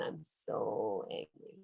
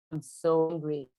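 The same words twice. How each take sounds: First: Much lower, much softer and slow, a pretend pout; a hint of a grumpy kid, low and slow; mock sulky anger. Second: Said in the usual way. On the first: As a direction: sulk the words like a cross child. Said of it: "Oh, when my toy breaks down".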